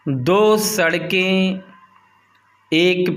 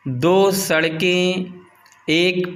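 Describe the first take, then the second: No difference in how they are said.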